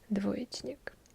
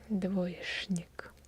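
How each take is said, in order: First: The consonant before 'nik' sounds like 'ch'. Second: The consonant before 'nik' sounds like 'sh'. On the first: This is the formal, official pronunciation. "is the official way to pronounce it" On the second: This is the casual, everyday pronunciation. "in everyday speech you would say двоечник. So it turns into sh"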